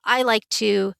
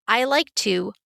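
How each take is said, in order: Both takes have the same delivery.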